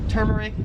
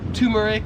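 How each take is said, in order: First: It is said with an American pronunciation. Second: It is said with an Australian pronunciation. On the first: "I would pronounce this as turmeric" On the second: "in Australia, they would pronounce it as turmeric, like you have a tumor"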